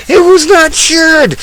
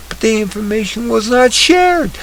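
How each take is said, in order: First: "It was not shared" thrown out much higher and louder, hitting "was"; stress on WAS. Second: Said in the usual way. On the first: Real, not acted. Host repeats the claim to viewers, loud high stress on "was". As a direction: bang home "was", outraged. Emphatic repeat of news line.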